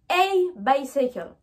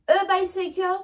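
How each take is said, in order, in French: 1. L'article se prononce comme la lettre A. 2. L'article se prononce comme la lettre E. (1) "mais je dis a bicycle" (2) "je ne dis pas a bicycle"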